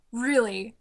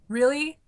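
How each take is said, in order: First: Deadpan disbelief. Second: Higher, rising disbelief; incredulous question. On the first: Fan doubting the casting of Khan, deadpan. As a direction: let the doubt settle, no lift. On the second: Fan questioning the casting of Khan, incredulous. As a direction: question it, voice lifting. Ranting about odd casting choice. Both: Acted.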